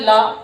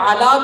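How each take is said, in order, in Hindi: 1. शब्द सीधे l की आवाज़ से शुरू होता है। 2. शब्द की शुरुआत l से पहले एक स्वर से होती है। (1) "पढ़ते थे ला"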